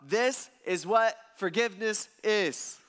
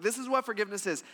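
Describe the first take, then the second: First: Slow, deliberate, every word weighted in "This is what forgiveness is"; slow emphasis. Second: Fast, light run through "This is what forgiveness is"; quick restatement. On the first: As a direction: lean on "what" and drag "This is what forgiveness is" out slowly. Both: Acted. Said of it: "This is key".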